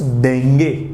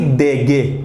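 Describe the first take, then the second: First: A nasal n sound comes before the ge. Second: No nasal sound comes before the ge. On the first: The speaker calls it right. "जब हम सही उच्चारण करते हैं तो कुछ देंगे" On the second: The speaker calls it wrong. "ना कि देगे। देगे तो बिल्कुल होगा ही नहीं"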